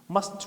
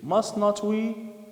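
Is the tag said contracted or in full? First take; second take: contracted; full. First: The tag is said in contracted form. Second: The tag is said in full, uncontracted. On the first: The speaker calls it right. "it's better to say" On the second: The speaker calls it wrong. "it's so long, it's lagging, it's not fluent"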